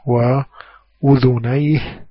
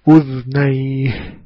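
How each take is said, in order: First: The dhal carries a short vowel: udhunayhi. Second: The dhal is silent, without vowel: udhnayhi. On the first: This is the common reading of the word. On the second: This is the reading of one transmitter, Nafi'.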